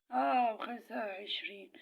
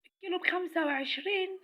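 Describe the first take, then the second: First: Slow, lower, smug اه stretched out; sarcastic drawl. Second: Higher, scoffing question on وعشرين; mocking disbelief. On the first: Acted. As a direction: drag it out mockingly. Confirming the price with scorn. (تأكيد ساخر ببطء) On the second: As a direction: sneer at the price in disbelief. Mocking the new high price. (استغراب ساخر)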